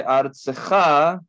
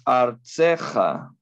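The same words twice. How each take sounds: First: Artzeja with the stress on the last syllable, ja; regular stress. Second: Artzeja slowly, stress on tze with a lengthened vowel; pausal stress. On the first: Teacher giving the non-pausal artzeja to contrast. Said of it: "en vez de artzeja, es artzeja". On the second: Teacher modelling the pausal form artzeja to students. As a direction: lean on the tze of artzeja and stretch it. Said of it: "se alarga esta vocal". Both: Shown as a demonstration.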